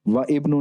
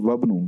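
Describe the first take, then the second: First: The 'i' vowel before 'bnu' is pronounced separately. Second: The 'i' vowel is dropped, linking into 'wabnu'. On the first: The speaker calls it wrong. "व इब्नु नहीं पढ़ा" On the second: The speaker calls it right. "बल्कि वबनु"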